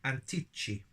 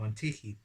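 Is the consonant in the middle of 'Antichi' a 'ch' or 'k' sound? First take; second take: ch; k. First: The middle consonant sounds like English 'ch'. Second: The middle consonant sounds like a hard 'k'. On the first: The speaker calls it wrong. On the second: The speaker calls it right.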